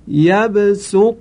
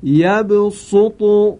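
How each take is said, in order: First: یبسط recited with a clear s sound, drawn out; یبسط recited slow with s; with sin. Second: یبسط recited with an emphatic sad, drawn out; یبسط recited slow with emphatic s. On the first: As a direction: chant یبسط slowly with sin. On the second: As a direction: chant یبسط slowly with heavy sad. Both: Shown as a demonstration.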